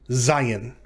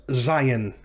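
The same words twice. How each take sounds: No difference in how they are said.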